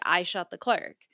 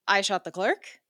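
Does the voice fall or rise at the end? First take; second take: fall; rise. First: The voice falls at the end, like a statement. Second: The voice rises at the end, like a question.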